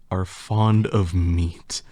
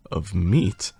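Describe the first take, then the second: First: Said in the usual way. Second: "meat" lifted as a question; rising tune on "meat"; questioning echo. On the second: A narrator's reading. Narrator echoes it as question.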